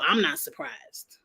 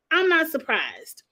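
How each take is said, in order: First: Said in the usual way. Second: "I'm not surprised" raised much higher, landing on a fall; pitched-up repeat for emphasis; emphatic repeat. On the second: Shown as a demonstration. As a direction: hit "I'm" up high, then drop.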